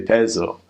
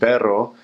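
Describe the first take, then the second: First: The double R sounds like a buzzing Z. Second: The double R is trilled as usual.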